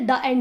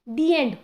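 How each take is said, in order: First: 'The' is said with a short 'thuh' sound. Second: 'The' is said with a long 'thee' sound. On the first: The speaker calls it wrong. "हम कभी ये तो नहीं बोलते द एंड" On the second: The speaker calls it right. "ई इधर जो sound आ रही है वो वॉवल के बेसिस पे"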